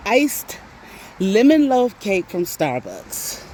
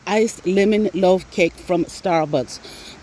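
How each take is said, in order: First: "lemon loaf cake" said slowly, word by word; spelled out slowly. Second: "Iced" hit first, then the rest said very slowly; slow, emphatic correction stressing Iced. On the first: Spelling out her craving, slow and deliberate. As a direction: lay out the exact order slowly. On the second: Correcting the cake name, slow with stress on iced. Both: Shown as a demonstration. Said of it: "Not, not lemon cake".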